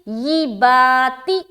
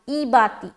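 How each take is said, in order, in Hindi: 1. यह अक्षर 'y' की ध्वनि से शुरू होता है, यानी 'yee'। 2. यह अक्षर सीधे 'ee' स्वर से शुरू होता है। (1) "तो यहां पर क्या पढ़ना है?" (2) "तो ई बाती गलत है"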